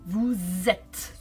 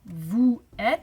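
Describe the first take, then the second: First: A z sound links the two words together. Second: The two words are said without a linking z. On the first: The speaker calls it right. "I said vous êtes. So you have to make the liaison" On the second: The speaker calls it wrong. "I didn't say vous êtes"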